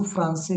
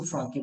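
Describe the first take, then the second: First: फ्रांस से as fran-SE, c as s; soft c. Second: फ्रांकी with c sounded as k; hard c. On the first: Teacher naming the reading needing a cedilla, soft c. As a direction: say फ्रांस से with an s sound for c. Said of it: "इसको फ्रांस से नहीं बोल सकता". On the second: Teacher reading the word without accent, hard c. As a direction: say फ्रांकी as fran-kee, hard k. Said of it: "मैं इसको फ्रांकी बोलूंगा". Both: Shown as a demonstration.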